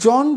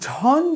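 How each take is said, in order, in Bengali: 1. অক্ষরটি একটি সাধারণ j ধ্বনি দিয়ে শুরু হয়। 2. অক্ষরটি একটি অ্যাসপিরেটেড jh ধ্বনি দিয়ে শুরু হয়। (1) "জন যদি বলি তবুও ভুল হয়ে যাচ্ছে" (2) "ঝন যদি বলি তবুও ভুল হয়ে যাচ্ছে"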